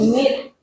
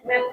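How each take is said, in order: First: "meet" said with an ee vowel, like "mit"; pronunciation correction. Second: "meet" said like "met", with an eh vowel; mispronunciation demo. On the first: Teacher correcting pupils, "meet" with an ee sound. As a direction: end on "meet" with a clear ee and rising tune. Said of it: "tapi meet". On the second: Teacher showing pupils the mistake, "meet" as "met". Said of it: "Bukan meet". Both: Shown as a demonstration.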